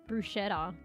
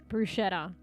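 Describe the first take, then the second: The two takes are said the same way.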